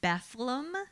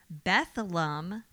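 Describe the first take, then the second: First: Two syllables, with an f sound in the middle. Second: Two syllables, with a th sound in the middle. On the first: "the first one was B-E-F-L-E-M"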